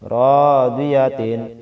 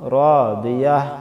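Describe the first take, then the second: First: The word ends with a full tin syllable. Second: The word ends with a soft h sound. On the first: The reading continues without stopping. "কি হইছে র দিয়া তিন" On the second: The reader stops at this word. "যদি এখানে ওয়াকফা করি আমরা, র দিয়া কি বলতে হবে"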